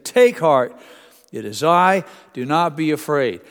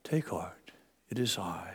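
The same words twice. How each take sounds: First: Shouted over storm. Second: Soft, much quieter and lower, soothing; calm gentle voice. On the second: Preacher showing the calm version Jesus didn't use. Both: Shown as a demonstration. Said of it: "I don't think this would have been a calm".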